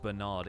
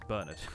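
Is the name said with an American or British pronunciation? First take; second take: American; British. First: The name is said with an American pronunciation. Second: The name is said with a British pronunciation.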